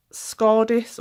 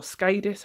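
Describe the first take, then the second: First: Scadis with a long "ah": SKAR-dis; first pronunciation guess. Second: Scadis with a long A: SKAY-dis; "ay" as in day in the first syllable of Scadis; alternative pronunciation guess. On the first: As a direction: say Scadis like "scar-diss". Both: Shown as a demonstration. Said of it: "however you pronounce it".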